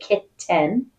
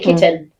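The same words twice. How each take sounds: First: The second syllable has a full, clear vowel. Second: The second syllable has a reduced schwa vowel. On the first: The speaker is being very careful. "If we're using good dictation, diction, we might say kitten" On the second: This is everyday, relaxed speech. "We say kitten"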